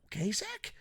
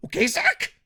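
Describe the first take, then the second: First: Soft, raised questioning pitch; pointed soft check. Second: Loud, very high rising question; scolding yell. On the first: Reviewer scolding Zack Sabre Junior, pointed soft check. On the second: Reviewer scolding Zack Sabre Junior, scolding yell. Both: Acted.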